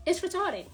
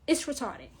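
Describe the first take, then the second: First: It's retarded with It's pitched higher; emphatic repeat. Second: Said in the usual way. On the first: Shown as a demonstration. To her viewers, repeating it for emphasis, higher and punchier. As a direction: hit It's harder on the repeat.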